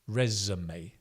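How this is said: American pronunciation with an 'uh' vowel sound. "Americans tend to pronounce it resume"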